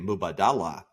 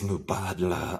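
First: The name is said with four syllables. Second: The name is said with three syllables. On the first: The speaker calls it wrong. "everybody wants to say Mubadala" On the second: The speaker calls it right. "It's Mubadla. I think you'll find it's pronounced"

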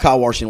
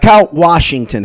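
First: Washington has an r sound after the first vowel. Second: Washington has no r sound after the first vowel. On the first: "Where's the R?" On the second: "All right, Kyle Washington. How about that?"

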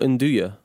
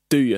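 First: The word starts with an N sound. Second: The word starts with a D sound.

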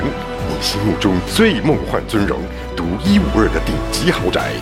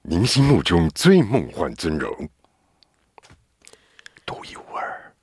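First: It is read in an ordinary advertising tone. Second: It is read in an eerie, spooky tone.

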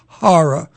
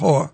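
First: The word does not sound like 'whore'. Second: The word sounds like 'whore'. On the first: The speaker calls it right. "For those of you out there, that's horror" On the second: The speaker calls it wrong.

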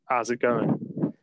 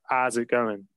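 First: It is said in a Nottingham accent, dropping sounds. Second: It is said in a Nottingham accent, dropping sounds.

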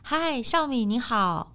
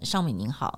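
First: The voice sounds open, with the jaw relaxed. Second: The voice sounds muffled, with the jaw nearly closed.

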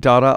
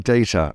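First: The word is said with an American pronunciation. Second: The word is said with a British pronunciation. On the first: This is how the other person says it. "You say data" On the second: This is how the speaker says it. "I say data"

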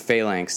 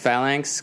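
First: It is said with an American pronunciation. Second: It is said with a British pronunciation. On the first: "all the Americans were like, no, it's Phalanx" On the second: "that's like the British way of saying it"

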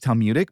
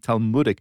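First: It is said in an anglicized, non-Jewish way. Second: It is said in a traditional Jewish way. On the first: This is the speaker's habitual way of saying it. The speaker calls it wrong. "how naturally it comes to me as Talmudic" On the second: This is how the community says it. The speaker calls it right. "It should be Talmudic"

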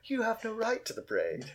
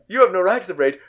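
First: It is said in a snide, sarcastic tone. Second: It is said in a harsh, lashing-out tone. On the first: The remark is a mocking jab. The speaker calls it wrong. "in a sort of snarky voice" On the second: The remark is an angry outburst. The speaker calls it right. "more lashing out"

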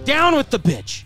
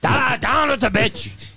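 First: It is said in a normal speaking voice. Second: It is said in a put-on pirate voice.

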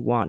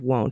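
First: The vowel sounds like 'ah', as in want. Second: The vowel sounds like 'oh', as in won't. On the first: The speaker calls it wrong. "I pronounce it want" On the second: The speaker calls it right. "instead of won't"

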